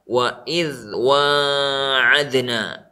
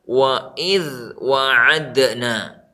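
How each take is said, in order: First: The first vowel of wa'adna is long. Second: The first vowel of wa'adna is short. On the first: "itu pakai alif" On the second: "enggak pakai alif"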